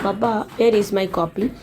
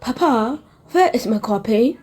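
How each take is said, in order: First: It is said in an Indian accent. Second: It is said in a British accent.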